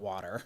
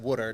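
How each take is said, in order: First: It is said with a general American accent. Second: It is said with a New Jersey accent. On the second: "that's why I said"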